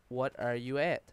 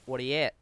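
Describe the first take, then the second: First: "What are you at?" with each word said separately; spelled-out translation. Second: "What are you at?" run together like "whaddy-at"; quick, casual Newfoundland slur of "What are you at?"; Newfoundland slang. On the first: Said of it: "what that basically translates to is". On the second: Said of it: "we'll just say". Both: Shown as a demonstration.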